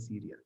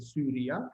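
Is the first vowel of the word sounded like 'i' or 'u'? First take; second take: i; u. First: The first vowel is sounded like 'i'. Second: The first vowel is sounded like 'u'. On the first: This is how less learned Romans said it. "pero los menos eh, doctos a lo mejor decían Siria" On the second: This is how Greek-speaking, more educated Romans said it. "Los romanos que hablaban griego eh, mejor seguramente lo harían Suria"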